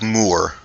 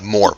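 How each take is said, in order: First: The name is said like the English word moor. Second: The name is said like the English word more. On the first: The speaker calls it right. "but like Moor, like like it's it's a different pronunciation of it" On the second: The speaker calls it wrong. "not like more"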